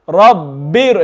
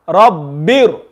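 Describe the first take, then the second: The two takes are said the same way.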